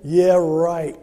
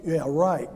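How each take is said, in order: First: Loud scoffing yeah right; sarcastic cynic. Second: Said in the usual way. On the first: Retold or imitated. Preacher voicing his inner cynic at a bank banner, loud sarcasm. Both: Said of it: "the old cynic in me said".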